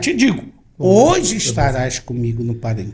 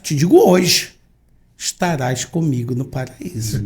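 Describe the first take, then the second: First: The pause comes right before 'hoje'. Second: The pause comes right after 'hoje'. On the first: Being in paradise happens today. "Nossas Bíblias" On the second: The promise is made today; paradise comes later. "Agora o texto da tradução do Novo Mundo"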